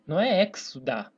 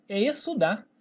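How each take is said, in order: First: "exudar" with a sounded X, as eks-su-dar; "exudar" with the X pronounced hard as KS; wrong pronunciation shown. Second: "estudar" said es-su-dar, with no K sound; "estudar" pronounced smoothly as essudar; silent X. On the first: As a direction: punch a KS in "exudar". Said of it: "Senão eu pronunciaria". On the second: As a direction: drop the X in "estudar", only an S sound. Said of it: "Note que eu nem pronuncio". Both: Shown as a demonstration.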